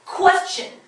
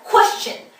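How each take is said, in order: First: The first syllable is said with strong stress. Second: The same.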